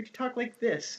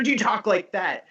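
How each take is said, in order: First: High, softened voice; soft high inflection demo. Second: Higher, slightly louder questioning voice; raised inflection demo. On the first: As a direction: lift the pitch and soften right down. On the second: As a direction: lift the pitch to show a contrasting tone. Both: Shown as a demonstration. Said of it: "shape it with inflection".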